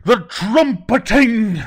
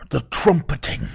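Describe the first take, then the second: First: High, slow terrified scream. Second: Shaky, haunted cry of dread; fearful trembling cry. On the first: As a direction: scream it and flee. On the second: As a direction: cry it out in fear. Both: Acted. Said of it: "he screamed and ran off".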